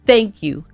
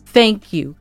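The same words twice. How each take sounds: The two takes are said the same way.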